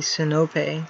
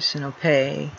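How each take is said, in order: First: The stress falls on the second-to-last syllable. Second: The stress falls off the second-to-last syllable. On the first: The speaker calls it right. "the accent in classical Greek is on the penult" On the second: The speaker calls it wrong. "or Sinope"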